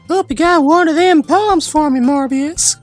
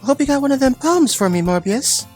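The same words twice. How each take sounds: First: It is read in a southern accent. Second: It is read in a plain accent.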